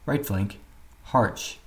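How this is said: Right flank is said together in one step. The speaker calls it right. "These commands should be called in one step"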